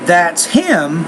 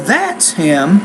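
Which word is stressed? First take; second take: him; that's. First: The word him is stressed. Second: The word that is stressed. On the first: It points at a particular person. "when I stress the word him" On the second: It asks whether he is the right person. "if I stress the word that"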